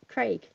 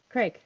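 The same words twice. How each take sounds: First: "Craig" with a long AY vowel; British pronunciation of Craig. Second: "Craig" with a short E, like Creg; American pronunciation of Craig. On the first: Guest contrasting the name for the host, British Craig first. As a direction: say Craig to rhyme with vague. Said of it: "We pronounce it Craig". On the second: Guest contrasting the name for the host, American Craig second. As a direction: say Craig to rhyme with leg. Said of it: "We don't pronounce it Craig". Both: Shown as a demonstration.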